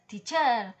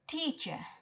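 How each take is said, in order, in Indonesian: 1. Kata ini memakai tekanan gaya Indonesia. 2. Kata ini memakai tekanan gaya Inggris. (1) "Kalau dalam versi Indonesia ya bisa saja teacher" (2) "in English ya teacher"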